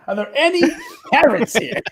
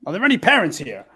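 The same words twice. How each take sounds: First: Laughing. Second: Said in the usual way. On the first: Real, not acted. Asks again laughing.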